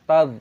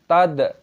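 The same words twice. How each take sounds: First: The final consonant ends without a bouncing echo. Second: The final consonant ends with a bouncing echo. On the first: The speaker calls it right. "kita baca tad" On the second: The speaker calls it wrong. "jangan kita qalqalah"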